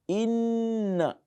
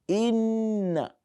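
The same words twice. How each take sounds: Both takes have the same delivery.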